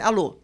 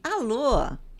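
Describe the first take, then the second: First: It sounds annoyed and irritated. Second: It sounds cheerful and upbeat. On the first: The call came at a bad moment. "Opa, ótimo o momento que eu liguei, né? Pelo amor de Deus" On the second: The person is having a great day. "Viu o passarinho verde, né? Que beleza, um dia deve estar ótimo para você"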